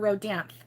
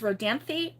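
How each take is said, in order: First: The name ends on a consonant, no vowel. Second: The name ends with an added vowel sound.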